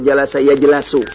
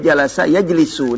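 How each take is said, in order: First: The vowel after the l is a. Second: The vowel after the l is i. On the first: The speaker calls it wrong. "Enggak mungkin" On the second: The speaker calls it right. "ini jalasa ya jelisu"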